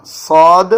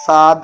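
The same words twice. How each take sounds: First: صاد said full and heavy, louder; heavy saad. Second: Wrong ساد with a plain light s; thin saad. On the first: Teacher showing students the correct heavy saad. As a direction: make صاد thick and heavy. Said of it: "موٹا کر کے پڑھیں گے". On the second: Teacher showing students the wrong thin saad. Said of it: "ساد نہیں پڑھنا". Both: Shown as a demonstration.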